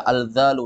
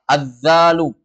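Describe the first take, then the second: First: Al-zalu dibaca dengan huruf l dan za; wrong reading al-zalu. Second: Az-zalu with the l merged into a doubled z; correct reading Az-zalu. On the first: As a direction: say al-zalu with a clear L, not assimilated. (salah dibaca al-zalu) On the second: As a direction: stress the doubled z in Az-zalu, clear and loud. (dibaca Az-zalu, z ditasydid) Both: Shown as a demonstration.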